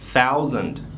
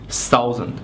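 First: The opening th sound is clearly pronounced. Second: The opening th sound is not clearly pronounced. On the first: The speaker calls it right. "你也要把这个 th 是吧？哎，给它读出来" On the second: The speaker calls it wrong. "很多都同学读成是 thousand"

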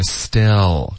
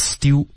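First: The lips stay still; the tongue shapes it. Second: The lips move and round on the vowel. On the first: The speaker calls it right. "不要动嘴唇，是still，靠舌头的动作" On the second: The speaker calls it wrong. "别发成still"

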